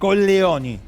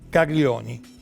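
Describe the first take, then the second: First: The middle consonant is a plain 'l' sound. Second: The middle consonant is a palatal 'gl' sound. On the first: It is the countess's real name. The speaker calls it right. "entonces pronunciémoslo bien" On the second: It sounds like the Italian word for testicles. The speaker calls it wrong. "Colleoni, Colleoni, perdón"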